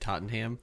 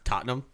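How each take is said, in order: First: The name is said with an American pronunciation. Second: The name is said with a British pronunciation. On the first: The speaker calls it wrong. "you said Tottenham" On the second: The speaker calls it right. "It's Tottenham"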